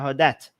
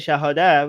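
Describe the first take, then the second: First: The word ends with a clear t sound. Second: The word ends on a vowel, no final t. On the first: This is how Iranians say it. "We call it the shahadat" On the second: This is how Arabs say it. "they don't um, pronounce the t sound at the end"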